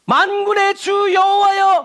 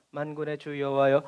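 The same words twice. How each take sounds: First: High, drawn-out ringing proclamation; booming scripture shout, stretched out; loud reading. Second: Low, soft, deflated recitation; quiet, lowered voice; subdued reading. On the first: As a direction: call it out big, high and slow. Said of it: "큰 소리로 읽었어요". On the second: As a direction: read it small and low, no command. Weak take against the loud one. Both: Shown as a demonstration.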